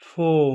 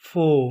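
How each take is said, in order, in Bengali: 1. এটি ব্রিটিশ উচ্চারণে বলা হয়েছে। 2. এটি ব্রিটিশ উচ্চারণে বলা হয়েছে।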